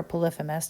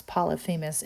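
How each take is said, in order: First: "Polyphemus" as puh-LIF-uh-mus; alternative pronunciation. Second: "Polyphemus" as pol-ee-FEE-mus; first pronunciation. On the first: Teacher offering another way to say the Cyclops's name, "Polyphemus" as puh-LIF-uh-mus. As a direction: stress the second syllable of "Polyphemus", LIF. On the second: Teacher offering one way to say the Cyclops's name, "Polyphemus" as pol-ee-FEE-mus. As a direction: stress the third syllable of "Polyphemus", FEE. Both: Shown as a demonstration. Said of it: "depending on how you want to pronounce his name".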